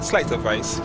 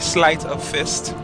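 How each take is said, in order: First: The last word sounds like vice. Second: The last word sounds like fist. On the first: The speaker calls it wrong. "Don't know why I get sleight of vice" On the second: The speaker calls it right. "it's the sleight of fist"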